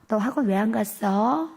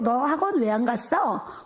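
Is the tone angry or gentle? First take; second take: gentle; angry. First: It is said in a kind, soft tone. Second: It is said in an angry, scolding tone.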